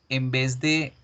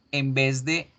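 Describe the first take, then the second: No difference in how they are said.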